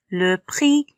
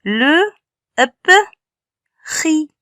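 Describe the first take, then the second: First: Said in the usual way. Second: "Le, p, ri" sounded out in separate pieces; syllabe par syllabe. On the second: Shown as a demonstration. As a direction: say "Le", "p", "ri" with a pause between each. (« Le, p, ri » découpé son par son) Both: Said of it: "C'est un syllabe".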